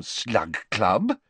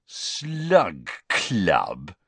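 First: Said in the usual way. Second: Drawn-out, mocking sneer. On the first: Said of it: "Hermione was saying". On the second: A narrator's reading. Boy mocking the club's name to his friend, sneering. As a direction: stretch each word with scornful disbelief. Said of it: "with a sneer worthy of Malfoy".

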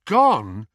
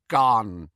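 First: Louder, stunned question; shocked boy's echo. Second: Hushed elf voice, dropping off; old elf in dread; elf's dread. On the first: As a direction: echo it in disbelief. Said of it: "echoed Harry, elation flooding out of him". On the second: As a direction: let the elf give up the word. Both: Acted.

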